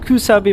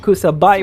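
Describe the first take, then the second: First: The last syllable rhymes with 'bee'. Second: The last syllable rhymes with 'bye'. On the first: The speaker calls it right. "it's Kusabi Maru instead of" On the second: The speaker calls it wrong. "very very mispronunciations"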